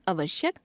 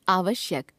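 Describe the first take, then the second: First: आवश्यक with a short first a, "uvashyak"; wrong pronunciation. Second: Said in the usual way. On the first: Shown as a demonstration. Teacher showing a common error, आवश्यक begun with short a. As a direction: shorten the opening vowel of आवश्यक, rising at the end. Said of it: "अशुद्ध". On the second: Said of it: "शुद्ध".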